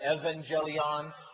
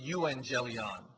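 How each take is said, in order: First: The word begins with an 'ev' sound. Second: The word begins with an 'eu' vowel sound.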